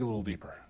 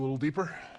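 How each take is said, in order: First: The voice falls at the end. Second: The voice rises at the end. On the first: It sounds like a statement. The speaker calls it right. "I meant to go down at the end" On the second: It sounds like a question. The speaker calls it wrong. "making that sound like a question"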